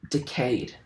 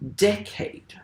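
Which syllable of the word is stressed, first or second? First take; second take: second; first. First: The stress is on the second syllable. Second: The stress is on the first syllable. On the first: "pronounce the word decade as iambic" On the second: "the word decade is trochaic rather than iambic"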